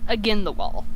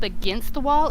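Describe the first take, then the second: First: The st at the end of 'against' is dropped. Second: The st at the end of 'against' is pronounced. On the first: "She drops the S T" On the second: "instead of saying"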